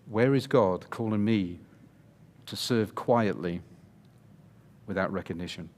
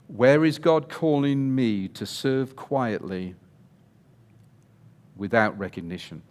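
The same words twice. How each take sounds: First: It is said at normal volume. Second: It is said loudly, almost shouted.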